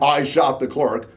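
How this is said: It is a flat statement falling at the end.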